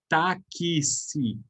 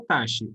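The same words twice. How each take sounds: First: Táxi with the X as K S, "táksi"; right way. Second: Taxi with a plain X, like "tashi"; wrong taxi. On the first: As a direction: say Táxi as tak-si, the X split into K and S. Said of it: "Esse X a gente fala K S". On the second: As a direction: say taxi with an SH sound, the way nobody says it. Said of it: "a gente não fala taxi". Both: Shown as a demonstration.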